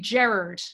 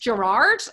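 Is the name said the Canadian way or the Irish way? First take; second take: Irish; Canadian. First: The name is said with an Irish pronunciation. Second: The name is said with a Canadian pronunciation. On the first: "in Ireland, it would be Gerard" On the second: "But here it's Gerard"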